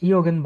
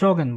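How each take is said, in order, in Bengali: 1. শব্দটা 'y' ধ্বনি দিয়ে শুরু হয়। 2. শব্দটা ইংরেজির 'j' ধ্বনি দিয়ে শুরু হয়। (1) "এটা ইয়োগেন বলে না" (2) "তারা এটাও ইংলিশের মতোই বলে, তারা জগেন বলে"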